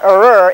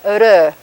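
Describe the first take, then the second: First: The R is a bunched, vowel-like sound. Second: The R is a quick tongue flap. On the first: The speaker calls it wrong. "It's not ur" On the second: The speaker calls it right. "it's ur"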